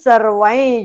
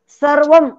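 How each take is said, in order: First: The final nasal is pronounced as ny. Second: The final nasal is pronounced as an m. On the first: The speaker calls it right. "ज वर्गातलं अनुनासिक कोणतं आहे? य" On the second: The speaker calls it wrong. "सगळ्या अनुस्वारांचे उच्चार आपण अम असं करतो"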